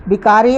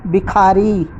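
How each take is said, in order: First: बिकारी said with a plain unaspirated k; बिकारी, a hard k with no breath after it; wrong pronunciation. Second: बिखारी said with an aspirated kh; बिखारी, the k released with a puff of breath; correct pronunciation. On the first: Teacher demonstrating the wrong form, unaspirated बिकारी. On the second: Teacher giving the correct form, aspirated बिखारी. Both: Shown as a demonstration. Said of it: "बिकारी अशुद्ध है".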